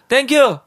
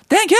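First: It is said at a low pitch. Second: It is said at a high pitch.

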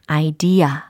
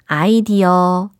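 First: The second part is pushed out with force. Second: It is said syllable by syllable, Korean-style. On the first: The speaker calls it right. "이렇게 뒷부분을 툭 내뱉으시면 됩니다" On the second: The speaker calls it wrong. "아이디어 이렇게 많이 발음을 하셨잖아요"

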